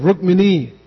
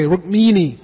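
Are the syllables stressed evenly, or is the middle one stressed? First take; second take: even; middle. First: All syllables get equal stress. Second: The stress falls on the middle syllable. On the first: The speaker calls it right. "instead of Rukmini ... there is no stress on any syllable" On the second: The speaker calls it wrong. "we all say Rukmini ... We tend to stress the second to last syllable"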